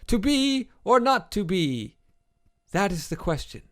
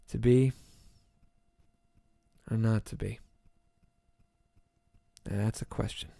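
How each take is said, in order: First: It is delivered in a grand, poetic manner. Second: It is delivered in a plain, casual manner.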